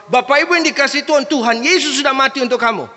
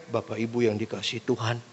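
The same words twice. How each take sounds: First: High, loud, fast proclamation; fiery preacher. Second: Soft, low greeting to the congregation; sleep-inducing preacher. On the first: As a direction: fire it at the congregation. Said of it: "jemaat ini tipikalnya pendeta harus". (khotbah lantang, tinggi dan berapi-api) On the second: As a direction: murmur it like a dull preacher. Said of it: "tidur semua jemaatnya". (salam pelan dan rendah, bikin mengantuk) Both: Acted.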